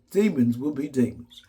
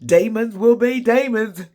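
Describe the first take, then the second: First: Said in the usual way. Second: High, slow sung demons; sung demons line. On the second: Retold or imitated. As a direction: sing it like a gospel hook. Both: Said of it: "She said".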